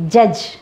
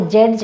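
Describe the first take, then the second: First: Judge with a short uh vowel, no d sound; teacher's right version; correct judge. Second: Judge as the Indian-English habit says it; teacher's wrong version. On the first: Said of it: "It is not judge". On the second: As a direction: show the common wrong judge. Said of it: "we Indians pronounce it as a judge". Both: Shown as a demonstration.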